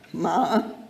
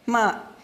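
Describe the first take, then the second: First: The syllable is said with the third tone. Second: The syllable is said with the fourth tone. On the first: It means horse. "The third tone" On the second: It means to curse or swear. "ma means to curse or swear"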